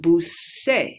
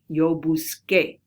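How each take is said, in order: First: The consonant before the final vowel is soft. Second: The consonant before the final vowel is a hard K. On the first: It loses the verb's original sound. "The C would become soft" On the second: It keeps the verb's original sound. "works just like a K"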